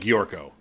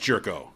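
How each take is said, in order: First: The name is said with a Russian-sounding start. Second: The name is said with a plain English start. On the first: "It sounds Russian when you say Giorko" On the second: "I know it's Jerko"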